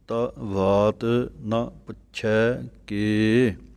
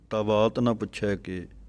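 First: Each word is said separately with small gaps. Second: The words are run together without separation. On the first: The speaker calls it right. "ਨਖੇੜ ਕਰਕੇ ਅਲੱਗ ਅਲੱਗ ਬੋਲਣਾ ਹੈ, space ਦੇ ਕੇ" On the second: The speaker calls it wrong. "ਇਸ ਤਰ੍ਹਾਂ ਨਹੀਂ ਬੋਲਣਾ"

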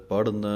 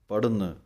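No difference in how they are said.

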